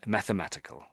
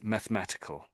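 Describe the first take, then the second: First: The 'e' after 'math' is fully sounded. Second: The 'e' after 'math' is dropped. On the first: "some people do bounce on that e" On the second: "So I'm sort of missing out the e"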